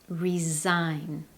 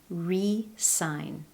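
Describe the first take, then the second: First: The middle consonant sounds like a Z. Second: The middle consonant is a clear S. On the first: Someone is leaving their job. "the S in the spelling actually sounds more like a Z" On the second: Someone signs a document again. "it's a clear S sound"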